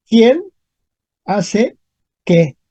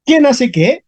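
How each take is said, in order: First: "¿Quién ... hace ... qué?" with clear gaps; word by word. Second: Said in the usual way. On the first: Shown as a demonstration. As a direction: pause after "Quién" and after "hace". Teacher repeats example word by word.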